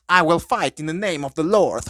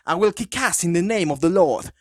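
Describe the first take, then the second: First: Put-on priest's battle cry in an over-the-top English accent; super English accent. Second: Put-on the corrected line, same over-the-top English accent; super English accent. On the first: Priest charging zombies, hammed-up super English accent. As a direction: declare it like a proper English vicar going to war. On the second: Retelling the priest's entrance line, hammed-up English accent. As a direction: proclaim it like a posh English priest ready to brawl. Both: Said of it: "con un acento súper, súper, súper inglés".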